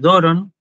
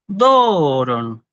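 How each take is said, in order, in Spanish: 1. La primera sílaba tiene un acento simple. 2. El tono sube y luego baja en la primera sílaba. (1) "nosotros la leemos así" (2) "los griegos antiguos leían esta palabra de esta manera"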